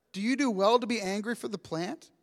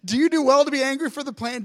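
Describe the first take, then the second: First: Quiet, softer formal reading of God's question; hushed, solemn scripture voice. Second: Quick, offhand retelling of God's question; breezy, faster everyday-voice rewording; fast casual paraphrase. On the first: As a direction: read it gently from the text. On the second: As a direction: toss it off like a friend asking. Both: Shown as a demonstration. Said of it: "This is the best. Like".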